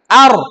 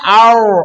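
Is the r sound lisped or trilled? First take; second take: trilled; lisped. First: The r is clearly trilled with the tongue. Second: The r is lisped, not trilled. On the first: The speaker calls it right. "Tapi bunyikan, getarkan" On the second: The speaker calls it wrong. "Huruf ro jangan dibaca cadel. Ar, ar, enggak"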